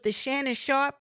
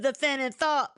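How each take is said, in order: First: The s and sh sounds are said clearly. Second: The s and sh sounds are lisped as th.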